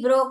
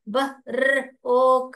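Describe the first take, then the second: First: The word is said smoothly as one unit. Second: The word is sounded out in separate parts. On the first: The reader reads the word whole without sounding out. "ऐसे नहीं" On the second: The reader is blending the sounds one by one. "ऐसे पढ़ोगे आप"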